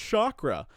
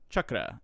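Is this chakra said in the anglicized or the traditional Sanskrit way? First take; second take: anglicized; traditional Sanskrit. First: It uses the anglicized, non-Sanskrit pronunciation. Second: It uses the traditional Sanskrit pronunciation. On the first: The speaker calls it wrong. "I second guessed myself the second time and said" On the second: The speaker calls it right. "it's actually pronounced chakra if you want to say it in the more traditional form"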